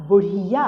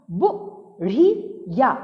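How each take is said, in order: First: Said in the usual way. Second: बुढ़िया split slowly into बु, ढ़ी, या; syllable by syllable. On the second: Shown as a demonstration. Teacher reading बुढ़िया for children, syllable by syllable. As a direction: sound out बुढ़िया with gaps between syllables. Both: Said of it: "ऐसे नहीं पढ़ना होता है".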